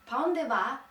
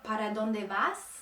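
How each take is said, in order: First: The word endings are dropped. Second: The words are pronounced in full.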